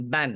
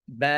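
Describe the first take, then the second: First: বান with the nasal ন fully sounded at the end; teacher models বান, ending on a clear ন; tanween demo. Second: বা with a long open vowel and no ন; teacher models stopping as বা, dropping the ন; stopping demo. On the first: Teacher shows students tanween when joining, clear demo. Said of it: "তানউইনের উচ্চারণটা কিভাবে উচ্চারিত হচ্ছে?". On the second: Teacher shows students how to stop on tanween, clear demo. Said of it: "কি পড়ব?". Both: Shown as a demonstration.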